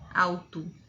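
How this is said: The final vowel is reduced to an 'oo' sound. The speaker calls it wrong. "o O no final não vai ser alto, alto, como no português"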